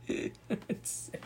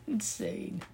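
First: Softer, breathy "Insane" laughed out; "Insane" half-laughed, unvoiced and soft; laughing whisper. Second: High, awed "Insane" falling away; "Insane" said high and falling in disbelief; incredulous. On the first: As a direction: laugh the word "Insane" under your breath. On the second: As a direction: say "Insane" high and let it drop. Reacts in disbelief. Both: Real, not acted.

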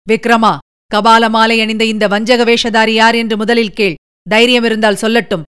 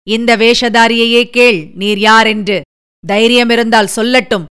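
First: A booming voice like thunder; thunderous voice. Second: Throaty roar. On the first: Hidden hero throws the dare back at the sorcerer, booming like thunder. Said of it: "இடிமுழக்கம் போன்ற ஒரு குரல்". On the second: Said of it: "அடித்தொண்டையினால் கர்ஜனை செய்தார்". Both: A narrator's reading.

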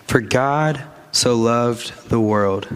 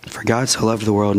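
First: X0.5 slow, every word set apart; slow emphatic recitation; slow, weighty repeat. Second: Said in the usual way. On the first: Shown as a demonstration. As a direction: lean on each word of "For God so loved the world". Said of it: "repeated slowly for emphasis". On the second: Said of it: "plain restatement".

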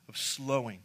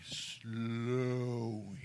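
First: Said in the usual way. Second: SLOWING in slow motion, the first syllable held; drawn-out slowing. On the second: Shown as a demonstration. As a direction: stretch "Slowing" out long and soft. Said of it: "Say it with me".

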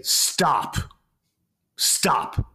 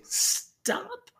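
First: Higher, forceful stop with a falling end; firm commanding stop. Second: Very high squeaky stop, rising at the end; weak, laughable stop. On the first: Teacher silencing a room of kids, firm command. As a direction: order it with full authority, no question in it. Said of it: "the room gets really quiet". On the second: Teacher showing kids a stop they laugh at, squeaky. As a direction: squeak it out like a timid question. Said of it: "you'll hear all these kids laugh". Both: Shown as a demonstration.

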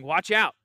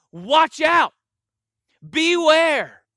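First: Said in the usual way. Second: Much higher and louder, a near-shouted watch out, beware; urgent loud warning. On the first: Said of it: "And he cautioned them". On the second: Shown as a demonstration. Pastor shows the congregation Jesus's severe warning, near-shouted and higher. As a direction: cry it out like a command with maximum urgency. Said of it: "And then twice".

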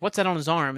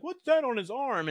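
First: Said in the usual way. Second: Higher-pitched, mocking imitation of a dim captain; mock dumb question. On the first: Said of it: "he's like". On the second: Host mimics captain distracted by the gadget, higher mock-dumb voice. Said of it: "And then being dumb".

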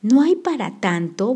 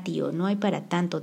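First: Louder incredulous yell; shouting. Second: Said in the usual way. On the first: A narrator's reading. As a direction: shout his words back at him. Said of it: "volvió a gritar".

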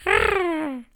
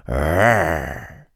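First: Tiny high squeaky roar; little sister copying the roar, much higher; copycat roar. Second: Low mock roar from Monty; a big brother's playful growl. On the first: Acted. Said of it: "a Millie também rugia". (rugido agudo e pequenino) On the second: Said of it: "Quando o Monty rugia". (rugido grave de brincadeira)

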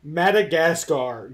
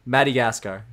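First: Madagascar repeated slowly, stressed; slow shocked Madagascar. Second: Madagascar with 'mati' middle; his odd Madagascar. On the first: Friend repeats his Madagascar, slow and aghast. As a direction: echo Madagascar slowly in disbelief. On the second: Man shows how he says Madagascar. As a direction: say Madagascar as 'mah-dee-gascar'. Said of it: "the other one that's probably gonna make you flip". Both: Shown as a demonstration.

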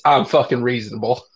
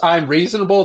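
First: A lower, firmer "I'm fucking reasonable"; firm emphasis. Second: Said in the usual way. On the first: Shown as a demonstration. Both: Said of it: "That's too soft".

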